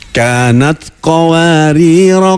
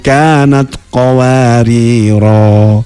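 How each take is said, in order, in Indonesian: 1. Vokal akhirnya pendek dan langsung bersambung. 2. Vokal akhirnya dipanjangkan sebelum berhenti. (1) "dua-duanya dibaca wasol" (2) "yang pertama diwakofkan menjadi rohnya panjang"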